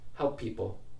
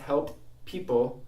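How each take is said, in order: First: A single P sound joins the words. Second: Two separate P sounds are pronounced. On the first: "let's make one P sound" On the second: "Instead of having two P sounds"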